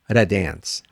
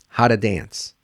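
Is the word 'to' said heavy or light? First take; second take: light; light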